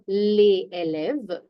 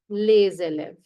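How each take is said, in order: First: The s of les is silent before élèves. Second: The s of les links as a z sound. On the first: The speaker calls it wrong. "this does not become les élèves" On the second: The speaker calls it right. "S has a Z sound"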